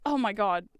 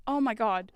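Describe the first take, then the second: No difference in how they are said.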